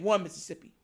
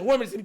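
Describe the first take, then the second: First: The count is spoken at a slow, steady pace. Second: The count is spoken quickly and hurriedly. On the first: The quarterback has time to wait. "instead of saying" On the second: The quarterback is rushed by pressure. "They got to speed up that mental clock"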